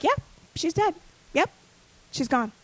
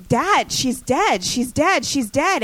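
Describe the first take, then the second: First: Imitating an unmoved dad, matter-of-fact; zero reaction. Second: Mildly acted distress, slow and high; retold crying plea. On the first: Dad confirms his daughter's death to crying sibling, zero reaction. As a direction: drop it casually, like a dad who doesn't react. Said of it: "my father has zero reaction". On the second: Daughter pleads with unmoved dad over sister's death, retold crying. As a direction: plead in a raised pitch, imitating tearful panic. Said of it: "hyperventilating, crying".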